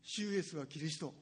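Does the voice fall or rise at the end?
falls. The voice falls at the end like a statement. It is stated as a fact. The speaker calls it wrong. "主イエスはキリストじゃなくて"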